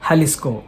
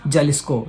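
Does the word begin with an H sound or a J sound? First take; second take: H sound; J sound. First: It begins with an H sound. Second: It begins with a J sound. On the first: The speaker calls it right. "No, it is Jalisco. ... you should pronounce J as ha" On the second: The speaker calls it wrong. "We tend to call it as"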